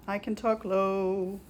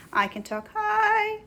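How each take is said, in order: First: Slow sung line settling low on "low"; sung, drop down and stretch out "low"; low singing voice. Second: Sung, drawn-out high note on "high"; high singing voice. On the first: Schubert singing about high and low, low voice. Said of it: "thinking about high and low and starts to sing". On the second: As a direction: sing "high" way up and hold it. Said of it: "starts to sing, "I can talk high". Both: A narrator's reading.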